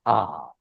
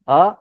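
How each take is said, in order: First: आ held long; sustained, lengthened आ; long vowel. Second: आ said as one brief beat; a quick, single-beat आ; short vowel. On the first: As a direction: draw आ out well past one beat. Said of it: "दीर्घ स्वर जो ज्यादा समय के लिए". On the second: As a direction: keep आ short. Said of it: "तो अ ह्रस्व है". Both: Shown as a demonstration.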